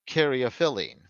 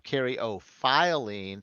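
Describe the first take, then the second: First: The 'phy' syllable has a lower I vowel. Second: The 'phy' syllable has a higher I, like 'file'. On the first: "with the lower I instead of the higher I" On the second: "File, but it's an O, not off"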